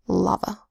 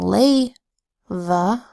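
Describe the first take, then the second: First: The first vowel is a broad 'ah' sound. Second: The first vowel is a long 'ay' sound. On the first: The speaker calls it right. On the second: The speaker calls it wrong. "this is not"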